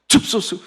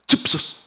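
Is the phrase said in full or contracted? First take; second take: contracted; contracted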